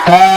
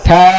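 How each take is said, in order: First: The letter starts with the tongue tip at the teeth. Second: The same.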